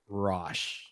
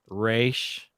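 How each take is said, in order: First: It has an 'o' vowel and ends in sh. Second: It has an 'ay' vowel and ends in sh. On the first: "it's also been pronounced Rosh" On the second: "it has been pronounced Raish"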